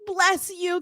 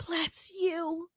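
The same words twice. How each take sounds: First: Said in the usual way. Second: Imitating a whisper through held-back tears; mock teary whisper; whispered bless you. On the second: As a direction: breathe it out tearfully. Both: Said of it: "she's like".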